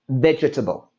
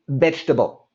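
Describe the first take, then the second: First: The extra middle vowel sound is pronounced. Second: The extra middle vowel sound is dropped. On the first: The speaker calls it wrong. "we don't say vegetable" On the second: The speaker calls it right. "We say it quick and fast, and we say vegetable"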